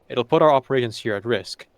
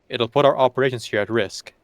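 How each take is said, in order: The two takes are said the same way.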